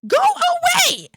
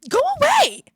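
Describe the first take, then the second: First: High, loud, slow yell; drawn-out shouted dismissal. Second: High, loud yell; shouted dismissal. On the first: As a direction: stretch each word of the yell. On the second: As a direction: yell to drive someone off. Yells at an interruption. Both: Real, not acted.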